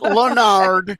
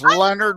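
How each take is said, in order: First: The o in the name is sounded. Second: The o in the name is silent. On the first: The speaker calls it wrong. "It looks French. It's not Leonard" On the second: The speaker calls it right. "It's Leonard without an O"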